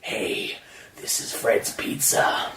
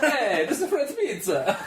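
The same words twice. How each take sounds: First: It is said in a laid-back surfer-dude voice. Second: It is said in a put-on Italian accent.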